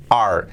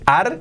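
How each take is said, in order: First: "are" with an open A and English R, lower; correct pronunciation. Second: "are" with a Spanish A and tapped R, higher; wrong pronunciation. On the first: Teacher corrects learners, English-sounding "are". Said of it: "que sea". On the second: Teacher warns learners off it, Spanish-sounding "are". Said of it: "Importante no digáis". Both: Shown as a demonstration.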